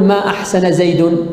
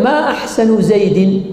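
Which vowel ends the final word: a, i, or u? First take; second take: u; i. First: The final word ends in a u vowel. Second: The final word ends in an i vowel. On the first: It denies that he did good. "تارة بالرفع" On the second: It asks which part of him is most beautiful. "وجررنا زيد"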